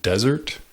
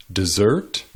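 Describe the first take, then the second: First: Desert as a noun, DEZ-ert; stress on first syllable. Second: Desert as a verb, de-ZERT; stress on second syllable. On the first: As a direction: hit "des" in desert. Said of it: "emphasizing the first syllable". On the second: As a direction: hit "sert" in desert. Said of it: "emphasizing the second syllable". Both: Shown as a demonstration.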